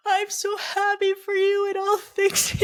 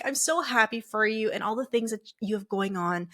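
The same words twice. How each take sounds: First: Very high, slow tearful squeal; hammed-up crying voice, stretched and high; mock bawling. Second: Said in the usual way. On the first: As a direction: imitate bawling through happy words. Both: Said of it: "I'm bawling".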